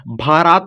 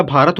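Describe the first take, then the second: First: भारात with a long 'aa' in the second syllable; wrong long vowel. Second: भारत with a short second vowel; correct short vowel. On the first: Teacher showing what the word is not, long-vowel misreading. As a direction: stretch the end of भारात to '-raat'. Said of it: "भारात नहीं होता". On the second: Teacher giving the right reading, short-vowel pronunciation. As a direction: keep the end of भारत brief, '-rat'. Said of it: "भारत होता है". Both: Shown as a demonstration.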